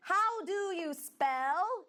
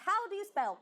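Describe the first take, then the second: First: Very slow, high "How do you spell?"; teacher modelling "How do you spell?" very slowly; slow model phrase. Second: Said in the usual way. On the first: Shown as a demonstration. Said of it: "Então, vamos lá".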